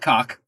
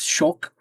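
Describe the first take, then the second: First: The word begins with a hard K sound. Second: The word begins with a soft SH-like sound. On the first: The speaker calls it wrong. "It is not cock" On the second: The speaker calls it right. "the Swedish K is pronounced as like a C H"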